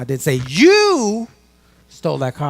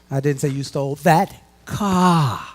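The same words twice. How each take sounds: First: The word 'you' is stressed. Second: The word 'car' is stressed.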